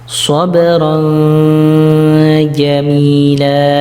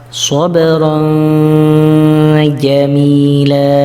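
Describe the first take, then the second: No difference in how they are said.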